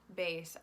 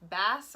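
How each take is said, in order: First: The vowel rhymes with 'face'. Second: The vowel rhymes with 'class'. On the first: "or the instrument" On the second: "like the fish"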